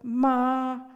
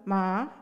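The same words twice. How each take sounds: First: The word is said in the first tone. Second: The word is said in the second tone. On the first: It means mother. "when spoken in the first tone" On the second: It means hemp. "In the second tone"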